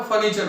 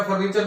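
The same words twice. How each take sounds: First: फर्नीचर with no R, like "faneecha"; silent R. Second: फर्नीचर with the R voiced, "farneechar"; wrong sounded R. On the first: Teacher giving the correct pronunciation, फर्नीचर with silent R. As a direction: drop both Rs in फर्नीचर. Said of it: "फर्नीचर होता है". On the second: Teacher naming the incorrect pronunciation, फर्नीचर with R voiced. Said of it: "सही उच्चारण इसका फर्नीचर नहीं होता". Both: Shown as a demonstration.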